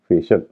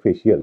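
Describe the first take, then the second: First: The ending is said as 'shul', two syllables. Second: The ending is said as 'shee-ul', three syllables. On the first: The speaker calls it right. "इसका सही उच्चारण है फेशल" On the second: The speaker calls it wrong. "अधिकतर लोग फेशियल या फेशियल कहते हैं"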